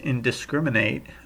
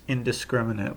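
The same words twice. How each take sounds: First: It is pronounced as a verb form. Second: It is pronounced in its adjective form. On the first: It would act as a verb. The speaker calls it wrong. "it would be a, a, a verb, but that's not a word" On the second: It describes something as an adjective. The speaker calls it right. "which is an adjective"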